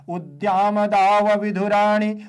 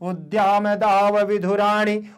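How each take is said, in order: The two takes are said the same way.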